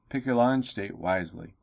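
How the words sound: It is read in a calm, serious tone. The choice is weighty and important. "Otherwise, you just read it. It have like a gravitas to it"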